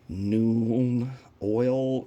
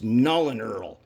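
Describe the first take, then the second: First: The first word has no L sound: noon. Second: The first word has an L sound: nuln. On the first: Many other people say it this way. "a lot of people call that like noon oil" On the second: It is read as written, because the paint nulls the shine. "When I read it, it says Nuln to me"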